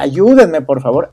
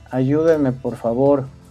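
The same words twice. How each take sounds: First: It is read with strong, lively emotion. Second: It is read flatly, without emotion. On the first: The speaker calls it right. "si tú le metes la emoción, los sentimientos" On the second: The speaker calls it wrong. "si lo leemos así como"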